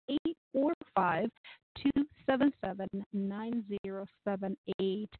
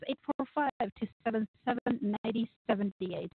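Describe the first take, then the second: First: The number is said more slowly. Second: The number is said at normal speed.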